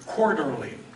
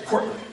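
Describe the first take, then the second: First: All syllables of the word are fully pronounced. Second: The r sounds are dropped, shortening the word.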